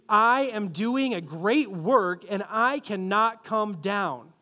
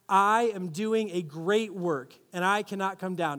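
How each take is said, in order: First: It is said with a sassy, defiant teenage attitude. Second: It is said in a plain, neutral tone.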